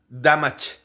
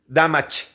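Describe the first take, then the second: The two takes are said the same way.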